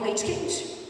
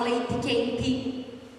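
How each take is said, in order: First: It is said in the speaker's Canoas accent. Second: It is said in the Pampa/Vale do Caí accent.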